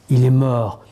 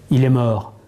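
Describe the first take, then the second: No difference in how they are said.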